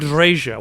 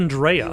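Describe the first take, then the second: First: The middle consonant is a hard J sound. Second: The middle consonant is a soft Y sound. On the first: The speaker calls it wrong. "Why Andreja?" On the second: The speaker calls it right. "Why not Andrea? ... that J pronunciation is not a hard J"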